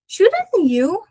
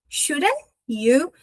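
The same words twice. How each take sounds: First: "Shouldn't you" as "shoulda you", no t, high; t dropped. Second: "Shouldn't you" as "shoulda you", no t, easy; t dropped. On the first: Teacher showing students that the t in "Shouldn't" drops. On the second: Teacher repeating "Shouldn't" without its t for students. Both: Shown as a demonstration. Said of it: "O T é sabor".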